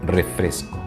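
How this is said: The s sound is clearly pronounced, neutral style. "en neutro"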